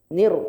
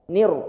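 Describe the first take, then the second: No difference in how they are said.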